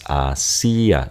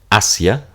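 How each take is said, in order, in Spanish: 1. La i y la a finales se separan en dos sílabas. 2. La i y la a finales forman una sola sílaba. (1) "ya está la división silábica" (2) "la fuerza tónica aquí en A, y este es el diptongo"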